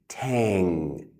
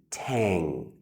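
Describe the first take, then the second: Both takes have the same delivery.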